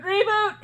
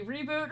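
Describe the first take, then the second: First: High, loud "reboot" call; mock alarm call. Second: Said in the usual way. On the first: Announcing updates rolling through the party, high mock alarm.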